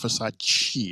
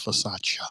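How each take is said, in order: First: The name is said the common American way. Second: The name is said a non-American way. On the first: The speaker calls it wrong. "It's not Versace" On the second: The speaker calls it right. "it's Versace"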